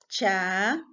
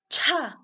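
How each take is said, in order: First: The ch is plain, with no extra air or catch. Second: The ch is released with a strong puff of air. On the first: "las oclusivas simples" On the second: "expulsar una fuerza de aire"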